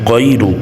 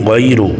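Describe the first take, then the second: No difference in how they are said.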